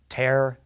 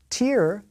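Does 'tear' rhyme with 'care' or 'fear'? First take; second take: care; fear. First: The word is said with a vowel rhyming with 'care'. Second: The word is said with a vowel rhyming with 'fear'. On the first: It is a verb: to rip something apart. "Tear, the verb, rhymes with care" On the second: It is a noun: a drop of liquid from the eye. "Tear, the noun, rhymes with fear"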